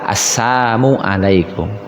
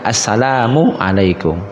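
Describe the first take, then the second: First: The first word drops 'la', sounding like sam. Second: The first word is said in full as salam. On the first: It wishes poison or harm on the listener. The speaker calls it wrong. "Yang salah" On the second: It wishes peace on the listener. The speaker calls it right. "Ini yang benar"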